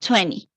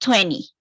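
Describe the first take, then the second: Both takes have the same delivery.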